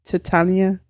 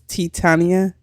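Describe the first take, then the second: The two takes are said the same way.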